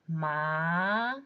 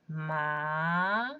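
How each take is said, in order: First: The pitch rises from mid to high. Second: The pitch rises from mid to high.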